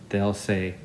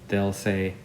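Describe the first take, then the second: Both takes have the same delivery.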